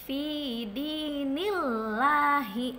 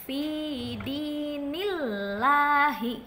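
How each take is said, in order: No difference in how they are said.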